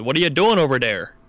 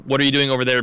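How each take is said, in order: First: It is said in a Midwestern accent, th as d. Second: It is said in a plain, standard accent.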